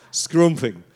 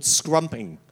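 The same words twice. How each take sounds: First: SCRUMPING with a northern "oo" in the first syllable; northern English accent. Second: Said in the usual way. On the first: Shown as a demonstration. Showing how they say it up north, northern English accent. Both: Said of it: "if you come from up north".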